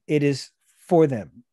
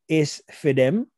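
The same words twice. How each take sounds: First: Said in the usual way. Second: "It's for them" said as "iss fi dem", slowly; slow Gullah "iss fi dem" for "It's for them"; Gullah pronunciation. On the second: Shown as a demonstration. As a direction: say "for them" as "fi dem", rising at the end. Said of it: "If somebody say".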